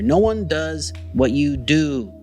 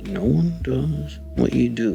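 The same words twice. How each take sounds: First: It is said in a sincere, encouraging tone. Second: It is said in a menacing, evil-sounding tone.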